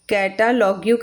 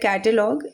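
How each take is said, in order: First: The word ends with an added 'yoo' sound. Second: The word ends plainly after the g sound.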